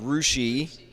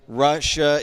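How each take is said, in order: First: The name ends in an 'ee' sound. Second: The name ends in an 'uh' sound. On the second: "Russia is"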